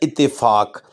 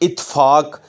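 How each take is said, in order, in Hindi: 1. दोहरे t के बाद 'e' स्वर आता है। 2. एक अकेला t सीधे f में जाता है। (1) "इसका दुरुस्त लफ्ज़ है" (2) "ये गलत लफ्ज़ है"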